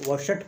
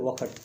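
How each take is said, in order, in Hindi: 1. बीच का व्यंजन 'sh' की ध्वनि है। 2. बीच का व्यंजन 'kh' की ध्वनि है। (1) "अधिकतर लोग वशट कह देते" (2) "जबकि वो है वखट, खा का उच्चारण आता है"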